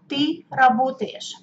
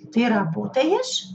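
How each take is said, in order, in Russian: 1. Произносится с повествовательной интонацией. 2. Произносится с вопросительной интонацией.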